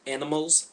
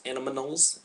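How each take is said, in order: First: Said in the usual way. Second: "animals" with an extra syllable; "animals" mangled with an added n sound; garbled word. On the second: Shown as a demonstration. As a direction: stumble "animals" into an-uh-muh-nulls. Fumbling the word in variants.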